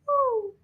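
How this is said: A high-pitched baby owl hoot.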